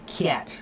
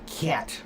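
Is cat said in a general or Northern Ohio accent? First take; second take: Northern Ohio; Northern Ohio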